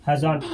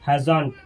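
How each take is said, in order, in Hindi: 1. यह एक छोटे शब्द में मिलकर बोला जाता है। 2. यह एक छोटे शब्द में मिलकर बोला जाता है।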